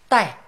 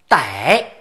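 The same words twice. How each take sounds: First: The word is said with the fourth tone. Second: The word is said with a non-fourth tone. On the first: It means to reach or attain. "他念四声逮" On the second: It means to catch. "代有的时候还念逮"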